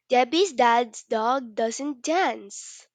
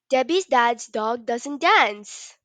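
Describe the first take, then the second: First: It is said at a fast pace. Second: It is said at a very fast pace.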